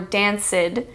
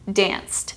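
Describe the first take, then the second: First: The -ed is spoken as a separate syllable. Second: The -ed adds no extra syllable. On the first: The speaker calls it wrong. "You don't say" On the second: The speaker calls it right. "You say"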